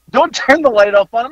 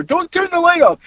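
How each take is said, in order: First: Slightly raised, coaxing mock plea; retold mild plea. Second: High-pitched mock protest; retold husband's protest. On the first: Bystander to the wife about the light, mildly pleading. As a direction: lightly plead for him, not yelling. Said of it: "I think I said". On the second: Husband telling wife off, mildly hammed-up protest. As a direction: imitate a yelled "Don't turn the light off". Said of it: "They heard him tell her".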